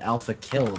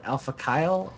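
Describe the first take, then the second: First: The second word has a short 'i' vowel. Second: The second word has a long 'eye' vowel. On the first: "I would have went with Alpha Kill because I don't see the E" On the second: "Would you pronounce it Alpha Kyle?"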